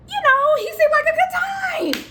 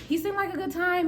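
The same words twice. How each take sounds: First: High, loud party shout; excited outburst. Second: High but no longer shouted; toned-down justification. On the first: Storyteller defending a fling to viewers, loud high excited shout. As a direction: shout it out, pitched way up. Justifying the fling, first take. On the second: Storyteller justifying a fling to viewers, high-pitched without shouting. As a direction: repeat it pitched up, at an ordinary volume. Same line repeated, toned down. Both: Acted.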